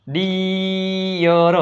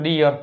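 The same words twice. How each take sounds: First: ડિયર very slowly, as "deee-yar"; long ee. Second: Said in the usual way. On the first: Shown as a demonstration. Teacher sounding out the word, long ee. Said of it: "દીર્ઘાય ઈ". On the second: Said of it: "આપણે આમાં કરી નાખશું ડિયર".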